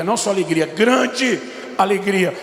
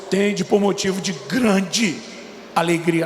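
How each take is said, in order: First: "grande alegria" drawn out slowly, "grande" stretched and weighted; stress on grande. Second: "tende por motivo de grande alegria" read slowly, "grande" drawn out; slow reading of the verse. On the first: Preacher stressing the verse to the church, slow emphasis on "grande". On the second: Preacher reading James to the church, slow solemn reading. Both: Shown as a demonstration.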